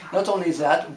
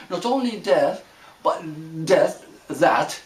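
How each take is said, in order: First: Said in the usual way. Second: "that" slipping out as "death", then corrected; accented slip. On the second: Real, not acted. Teacher tripping over own accent mid-talk, accented slip. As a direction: stumble on "death", then land on "that". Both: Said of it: "that's my accent".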